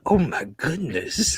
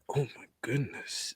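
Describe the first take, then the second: First: It is said loudly. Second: It is said quietly, under the breath.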